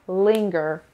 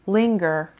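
No difference in how they are said.

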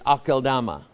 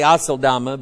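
First: The consonant after the first vowel sounds like k. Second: The consonant after the first vowel sounds like s. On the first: The speaker calls it right. "but it's Akeldama" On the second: The speaker calls it wrong. "I used to say Aseldama"

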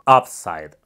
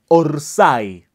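First: It sounds like a native English speaker. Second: It is said in the Argentine football way. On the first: The speaker calls it right. "noventa y seis por ciento correcto. Excelente, suenas noventa y seis por ciento como un hablante nativo" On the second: The speaker calls it wrong. "una palabra muy mal pronunciada en el fútbol argentino"

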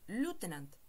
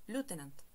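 First: It is said in an American accent. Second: The same.

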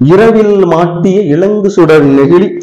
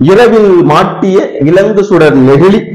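No difference in how they are said.

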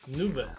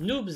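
First: The word ends without any s sound. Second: The word ends with an audible s sound. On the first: The speaker calls it right. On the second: The speaker calls it wrong.

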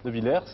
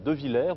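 First: The final s is pronounced. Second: The final s is silent.

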